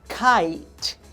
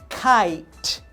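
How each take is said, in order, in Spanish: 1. La E final es muda, con una vocal 'eye'. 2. La E final es muda, con una vocal 'eye'.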